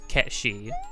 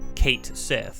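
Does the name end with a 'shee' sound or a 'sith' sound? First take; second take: shee; sith. First: The name ends with a 'shee' sound. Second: The name ends with a 'sith' sound. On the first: This is the original Gaelic pronunciation. "in Gaelic is pronounced Ketshi" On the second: This is how the English translation's spelling reads. "written to be pronounced like Kate Sith"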